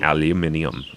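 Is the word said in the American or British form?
British. It is said with five syllables, alu-min-i-um.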